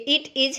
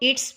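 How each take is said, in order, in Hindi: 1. इसे दो अलग-अलग पूरे शब्दों की तरह बोला जाता है। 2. इसे एक संकुचित (contracted) अक्षर की तरह बोला जाता है। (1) "ये इट इज है" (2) "इसको इट्स बोलेंगे"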